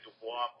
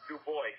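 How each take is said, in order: First: The name is said the French way. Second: The name is said in a Southern American way.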